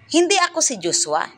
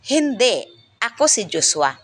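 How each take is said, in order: First: There is no pause until the end. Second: There is a pause right after hindi. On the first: The speaker denies being Joshua. "nasa hulihan ang hinto" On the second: The speaker confirms being Joshua after being mistaken for someone else. "ang hinto ay pagkatapos ng hindi"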